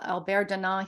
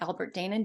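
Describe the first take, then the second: First: The surname is said the way its owner says it. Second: The surname is said as English spelling suggests. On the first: This is how the man himself says his name. "I do know how he says his name" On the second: This is how it looks to an English reader. "if you were reading English, it would look it looks like Albert Danon"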